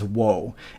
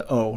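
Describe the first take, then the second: First: It begins with a w sound before the vowel. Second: It is a plain vowel with no w sound. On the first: The speaker calls it wrong. "not as woe" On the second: The speaker calls it right. "I pronounce this as O"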